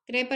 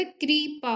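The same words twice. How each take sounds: First: कृपा with an e vowel, kre-pa; wrong form krepa. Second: कृपा slowly, with an i vowel, kri-pa; correct form kripa. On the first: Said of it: "कृपा नहीं होता". (कृपा को क्रेपा की तरह) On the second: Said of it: "कृपा होता है". (कृपा, धीरे से क्रि की ध्वनि के साथ) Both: Shown as a demonstration.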